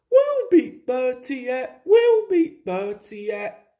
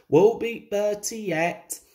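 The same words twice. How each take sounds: First: High, loud squeaky echo; higher, eager chorus; echoing carriages. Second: Said in the usual way. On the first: A narrator's reading. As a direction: chant it back like little carriages. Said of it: "echoed Annie and Clarabel". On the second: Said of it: "said his driver".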